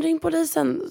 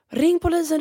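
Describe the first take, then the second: First: Högt, frågande ropande. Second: Hög, ljus ropande kvinnoröst; återberättat skrik. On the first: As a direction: ropa igen med stigande ton. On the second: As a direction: ropa på hjälp som den arga kvinnan. (kvinnan på gatan ropar på polisen, högt och gällt) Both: Retold or imitated. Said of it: "hon börjar skrika till mig på spanska".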